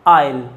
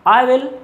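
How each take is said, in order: First: The words are joined into one contracted word. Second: Both words are said fully and separately.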